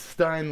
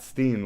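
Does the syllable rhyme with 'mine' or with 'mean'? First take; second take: mine; mean. First: The vowel sounds like the one in 'mine'. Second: The vowel sounds like the one in 'mean'. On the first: This is how the speaker says it. The speaker calls it right. "it's Stein like me" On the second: This is how other people say it. The speaker calls it wrong. "It's not Steen like them"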